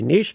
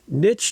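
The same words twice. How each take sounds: First: It is said the Canadian way. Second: It is said the American way.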